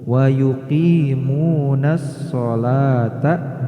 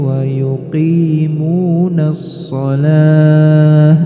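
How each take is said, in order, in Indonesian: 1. Kata terakhir berakhir dengan bunyi t. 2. Kata terakhir berakhir dengan bunyi h.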